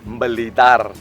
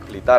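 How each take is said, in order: First: The word starts with an added m sound. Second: The word starts directly with a b sound. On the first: "ada kecenderungan nyebutnya itu bukan Blitar, tapi apa? Mbelitar" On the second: "ngomongnya kan enggak, oh dari kota Blitar ya"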